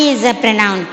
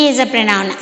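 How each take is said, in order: Both takes have the same delivery.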